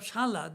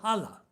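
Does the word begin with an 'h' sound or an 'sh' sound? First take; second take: sh sound; h sound. First: The word begins with an 'sh' sound. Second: The word begins with an 'h' sound. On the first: This is the standard form. "Instead of shala" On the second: This is the eastern dialect form. "they call hala"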